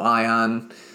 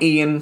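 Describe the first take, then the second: First: The name sounds like 'eye-on'. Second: The name sounds like 'ee-an'. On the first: This is how the character says his own name. The speaker calls it right. "but he pronounces it Ion" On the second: This is how the written name looks. The speaker calls it wrong. "If you read it, it looks like Ian"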